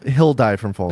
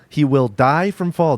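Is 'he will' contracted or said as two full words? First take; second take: contracted; full. First: He will is contracted into one syllable. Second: He will is said as two full words. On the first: The speaker calls it right. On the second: The speaker calls it wrong.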